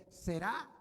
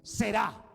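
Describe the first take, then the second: First: ¿Será? asked with a rising question tune; questioning rise. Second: Será stated firmly with a falling tune, louder; firm statement. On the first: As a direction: ask ¿Será? as a doubtful question. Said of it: "Le podés poner un signo de interrogación". («¿Será?» como pregunta, con entonación ascendente) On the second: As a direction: declare Será as certain fact. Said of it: "O podés decir". («Será» afirmado con firmeza, entonación descendente) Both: Shown as a demonstration.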